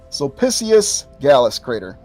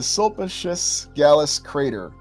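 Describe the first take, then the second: First: The name is pronounced in a Latin style. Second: The name is pronounced in an English style. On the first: The speaker calls it right. "Had to had to switch into Latin mode there" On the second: The speaker calls it wrong. "I'm not pronouncing it properly"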